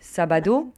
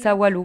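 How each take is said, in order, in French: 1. Elle est prononcée avec la prononciation standard de la ville. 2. Elle est prononcée avec la prononciation rurale de la campagne.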